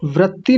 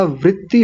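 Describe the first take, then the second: First: वृत्ति mispronounced as "vratti"; wrong vowel, "vra". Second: वृत्ति pronounced "vritti"; correct vowel, "vri". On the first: Teacher echoing the student's mistake, वृत्ति said as "vratti". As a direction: say वृत्ति with "ra" in the first syllable, "vratti". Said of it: "वृत्ति नहीं होता". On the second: Teacher correcting a student, वृत्ति said as "vritti". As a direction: say वृत्ति with "ri" in the first syllable, "vritti". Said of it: "वृत्ति होता है". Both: Shown as a demonstration.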